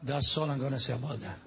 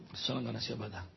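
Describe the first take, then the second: First: Said in the usual way. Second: Much lower and softer, a sly aside to himself; muttered under breath. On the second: Acted. Preacher repeats his joke to the congregation as a soft low mutter. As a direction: drop it to a low knowing mutter.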